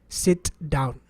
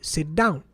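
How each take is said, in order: First: The T and D are pronounced separately. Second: The T is merged into the following D. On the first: The speaker calls it wrong. "No native English speaker says" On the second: The speaker calls it right. "The way we say it is"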